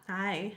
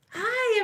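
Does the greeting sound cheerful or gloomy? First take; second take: gloomy; cheerful. First: The greeting sounds flat and gloomy. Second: The greeting sounds bright and cheerful. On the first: The greeter seems unhappy and unwelcoming. The speaker calls it wrong. "who is going to answer you?" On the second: The greeter is glad to see people. The speaker calls it right. "they begin to smile and their day become becomes bright"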